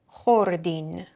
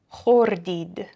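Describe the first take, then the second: First: The word ends with an 'in' sound. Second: The word ends with an 'id' sound.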